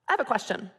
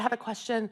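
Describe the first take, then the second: First: The voice sounds firm and confident. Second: The voice sounds hesitant and apologetic. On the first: The speaker feels entitled to speak up. The speaker calls it right. "taking out the words in my tone of voice" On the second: The speaker is unsure of her right to speak. The speaker calls it wrong. "Here is weak words"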